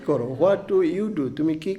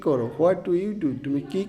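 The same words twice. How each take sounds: No difference in how they are said.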